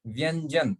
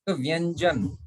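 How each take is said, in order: First: "व्यंजन" repeated with the nasal ñ before the j, falling; example word. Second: "व्यंजन" with the nasal ñ before the j, falling; example word. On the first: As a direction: echo "व्यंजन" as a model. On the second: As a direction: say "व्यंजन" clearly as a model. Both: Shown as a demonstration. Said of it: "If you forget the pronunciation".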